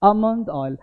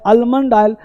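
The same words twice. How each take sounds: First: आमंड oil with silent L; correct pronunciation. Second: आलमंड oil with clear L; form to avoid. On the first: Teacher tells learners what to say, corrected. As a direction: say आमंड oil as "AH-mund oil". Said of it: "आपको बोलना है". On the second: Teacher warns learners off it, L sounded. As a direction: say आलमंड oil as "AL-mund oil". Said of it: "आलमंड oil थोड़ा बचना है". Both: Shown as a demonstration.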